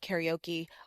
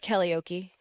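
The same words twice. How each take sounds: First: Karaoke is said in the speaker's usual pronunciation. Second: Karaoke is said in an imitated, different pronunciation.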